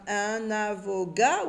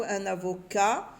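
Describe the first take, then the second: First: AVOCAT said "avoga", hard g for the k; mispronounced with g. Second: AVOCAT said "avoka", with a clear k; correct k sound. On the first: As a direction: say "avocat" slowly with a g sound, "avoga". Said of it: "C A T". (« avocat » prononcé « avoga », avec un g) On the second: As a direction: say "avocat" with a k before the final a. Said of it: "Non, avocat". (« avocat » prononcé « avoka », avec un k) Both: Shown as a demonstration.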